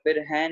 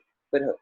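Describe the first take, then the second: First: The second word ends in an 'ai' vowel. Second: A bare short 'h' follows a brief break. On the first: The speaker calls it wrong. "फिर है नहीं बोलना" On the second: The speaker calls it right. "फिर ह बोलना है, ठीक है, ब्रेक लगा के"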